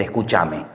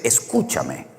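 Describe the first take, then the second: First: "escúchame" with the stress moved onto cha; Argentine stress. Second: "escúchame" stressed early, on cu; Spanish stress. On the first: Spaniard showing the form Spain lacks, "escúchame" stressed on cha. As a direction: say "escúchame" as escuchÁme. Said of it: "no existe el escúchame". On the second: Spaniard correcting the Argentine form, "escúchame" slowly stressed on cu. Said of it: "es escúchame o escuchadme". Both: Shown as a demonstration.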